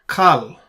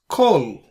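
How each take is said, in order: First: The vowel is an a sound. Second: The vowel is an o sound. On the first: The speaker calls it wrong. "not Kal" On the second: The speaker calls it right. "we pronounce this as Kol"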